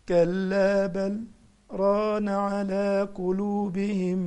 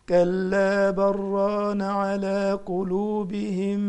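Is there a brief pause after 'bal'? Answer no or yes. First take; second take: yes; no. First: There is a brief pause after 'bal'. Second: The words run on without a pause. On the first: The reciter uses the longer vowel-lengthening style. "يقف سكتة لطيفة كده لأنه بيقرأ بالمد" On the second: The reciter uses the shorter vowel-lengthening style. "واللي بيقرأ بالقصر زيي هيقرأ زي ما هقرأ الآن"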